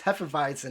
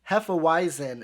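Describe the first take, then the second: First: It is said with a German pronunciation. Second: It is said with an American English pronunciation. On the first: The speaker calls it right. "no, it's Hefeweizen. It's a German beer" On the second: The speaker calls it wrong. "here in the U S ... They're like, oh, a Hefeweizen"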